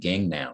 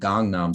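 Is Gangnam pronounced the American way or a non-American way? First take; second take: American; non-American. First: The name is said with an American pronunciation. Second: The name is said without an American pronunciation. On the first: "They say Gangnam" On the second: "It's not Gangnam Style in, in America"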